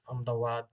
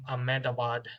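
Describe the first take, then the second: First: The name is said with a local-style pronunciation. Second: The name is said with a foreign-style pronunciation.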